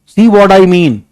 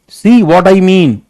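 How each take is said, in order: No difference in how they are said.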